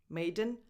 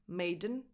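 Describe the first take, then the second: The two takes are said the same way.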